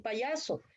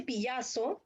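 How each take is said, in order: First: Said in the usual way. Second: Pillazo with a y sound in place of the first vowel, pi-YA-so; child's mispronunciation. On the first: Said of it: "por decir payaso". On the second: Shown as a demonstration. Therapy student shows the child's faulty pillazo. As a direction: say pillazo as a small child mangling payaso. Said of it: "no, él dice pillazo, por decir payaso".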